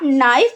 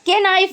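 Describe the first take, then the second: First: The word begins with an n sound. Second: The word begins with a k sound. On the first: The speaker calls it right. "आप नाइफ पढ़ते हो" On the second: The speaker calls it wrong. "के नाइफ नहीं पढ़ते हो"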